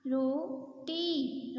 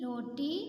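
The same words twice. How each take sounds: First: Slow drawn-out reading. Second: Said in the usual way. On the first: Shown as a demonstration. Teacher showing pupils the word, very slow. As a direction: stretch roti out very slowly, syllable by syllable.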